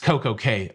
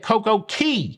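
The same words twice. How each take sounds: First: The last word is said like 'kay'. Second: The last word is said like 'key'. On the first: It follows the cruise line's branded pronunciation. The speaker calls it right. "from a Royal Caribbean perspective, is Coco Cay" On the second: It follows the local Caribbean pronunciation. The speaker calls it wrong. "you would be correct from a pronunciation in the Caribbean perspective"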